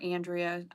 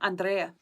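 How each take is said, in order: First: The name is pronounced with English sounds. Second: The name is pronounced with Spanish sounds. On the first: She is introducing herself to an English speaker. "obviously to somebody in English" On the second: She is introducing herself to a Spanish speaker. "if I'm gonna do it in Spanish"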